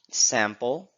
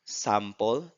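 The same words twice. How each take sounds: First: The vowel is the open front cat vowel. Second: The vowel is the open back father vowel.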